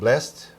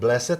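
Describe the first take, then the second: First: The word is said with one syllable. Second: The word is said with two syllables. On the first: It is the more modern way. The speaker calls it wrong. "instead of blessed" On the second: It is the older, traditional way. The speaker calls it right. "I prefer to pronounce it blessed ... I'm old school"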